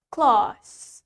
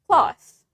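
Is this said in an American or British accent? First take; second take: British; American. First: The A vowel is long, British style. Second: The A vowel is short, American style. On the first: "Then the A is longer" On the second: "in American accent, the A is shorter"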